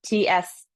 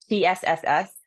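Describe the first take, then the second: First: A quick tss; short hiss. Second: Long tsss through the teeth; steam hiss. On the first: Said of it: "metal element is". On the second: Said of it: "tongue is right at the back of the teeth". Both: Shown as a demonstration.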